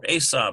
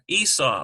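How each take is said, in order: First: The name is said as Hebrew Esav. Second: The name is said as English Esau.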